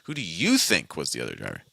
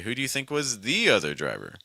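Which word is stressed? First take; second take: you; the. First: The word you carries the main stress. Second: The word the carries the main stress. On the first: "I'm focusing on this uh, this person I'm talking to" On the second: "the probably wouldn't get stressed in this situation, but you could, in theory, say"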